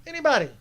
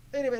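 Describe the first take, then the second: First: Anybody said high and loud, hammered home; stressed anybody. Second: Said in the usual way. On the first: Real, not acted. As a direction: punch Anybody hard and high. Emphatic repeat of anybody.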